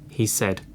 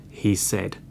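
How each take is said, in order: No difference in how they are said.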